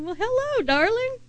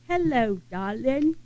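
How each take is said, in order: First: Much higher, bright sing-song "Well, hello, darling"; cheerful greeting back. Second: A light hint of an English Liverpool accent on "Hello, darling". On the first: Retold or imitated. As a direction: greet her back, lifting the voice way up. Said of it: "I repeated it back to her". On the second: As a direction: gently imitate the old Englishwoman's English greeting. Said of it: "she had this accent".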